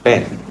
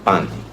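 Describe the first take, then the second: First: The vowel sounds like the e in bed. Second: The vowel sounds closer to the a in pan. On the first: "In standard English, we say pen" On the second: "but in Indian English, we used to say pan"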